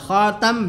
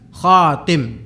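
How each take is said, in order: First: The second syllable has the vowel 'a'. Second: The second syllable has the vowel 'i'. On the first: He is the seal of the prophets. "di sini bisa dibaca khatam" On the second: He is the one who completes the prophets. "bisa dibaca khatim"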